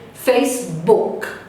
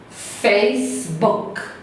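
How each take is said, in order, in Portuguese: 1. A palavra termina limpa, em um som de consoante. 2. A palavra termina limpa, em um som de consoante.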